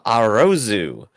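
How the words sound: The name is said with Japanese sounds. "pronounced in Japanese is uh"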